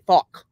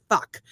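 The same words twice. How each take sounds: First: Louder, round Irish "fuck" with an open vowel; hammed-up Irish "fuck"; Irish accent. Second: "fuck" with a light Irish twist; mock Irish "fuck"; Irish accent. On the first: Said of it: "'cause they say". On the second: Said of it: "when Irish people say".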